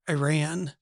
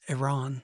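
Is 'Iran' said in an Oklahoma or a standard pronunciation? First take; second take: Oklahoma; standard. First: It is said in an Oklahoma accent. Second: It is said in a standard pronunciation. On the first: This is how people say it locally. "My daughter corrected me the other day because I said Iran" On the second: This is how people from the country say it. "Dad, it's Iran"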